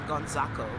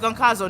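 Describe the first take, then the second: First: The z sound comes right after the n. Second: The z sound comes near the end. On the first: The speaker calls it wrong. "I kept calling him Gonzaco because dyslexia" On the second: The speaker calls it right. "oh, it's Goncazo"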